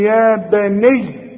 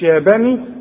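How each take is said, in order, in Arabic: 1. الياء الأخيرة ممدودة ومشددة. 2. الياء الأخيرة قصيرة ومفردة. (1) "وإذا وقفت على ديت هتقول لي يا بني" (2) "مش يا بني"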